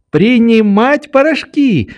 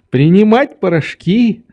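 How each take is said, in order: First: "принимать порошки" high and quick, falling at the end; girl chiming in. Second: "принимать порошки" high, rising at the end; agreeing old doctor. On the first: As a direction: finish his phrase "принимать порошки" as the child. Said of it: "подхватила Нелли". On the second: Doctor repeats Nelly's words. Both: A narrator's reading.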